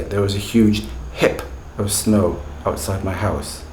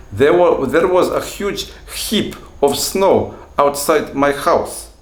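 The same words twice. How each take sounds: First: Said in the usual way. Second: Put-on slow, higher, louder Russian-accented English. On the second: Teacher acting what his student might have said, Russian accent. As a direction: play a Russian learner, pitched up and deliberate. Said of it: "when you listen to Russian speakers speaking English".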